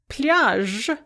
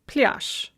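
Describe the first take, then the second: First: The final consonant is voiced. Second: The final consonant is voiceless.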